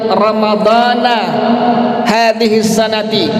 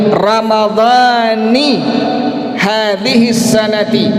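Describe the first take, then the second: First: Ramadan ends with an 'a' vowel: ramadhana. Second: Ramadan ends with an 'i' vowel: ramadhani. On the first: The speaker calls it wrong. "tidak dibaca dengan kalimat" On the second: The speaker calls it right. "Jadi cara bacanya"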